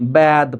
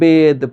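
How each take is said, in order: First: The vowel is an open ae sound. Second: The vowel is a closed e sound. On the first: The speaker calls it wrong. "এরকম বলা যাবে না" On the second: The speaker calls it right. "এ ধ্বনি এই থাকবে"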